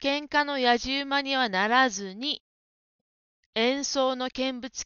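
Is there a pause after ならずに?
yes. There is a pause after ならずに. The speaker calls it right. "そこで間を取りましょう。"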